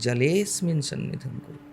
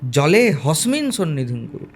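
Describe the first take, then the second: First: No h sound is inserted before 'smin'. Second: An h sound is inserted before 'smin'. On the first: The speaker calls it right. "হবে উচ্চারণ জলেস্মিন সন্নিধিং কুরু" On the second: The speaker calls it wrong. "অধিকাংশ লোক হকার উচ্চারণ করে পড়ে"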